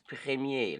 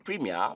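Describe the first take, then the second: First: It is said with a French pronunciation. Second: It is said with an English-style pronunciation. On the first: The speaker calls it right. "but is premier" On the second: The speaker calls it wrong. "I have heard a lot of people in the Anglophone countries say premier"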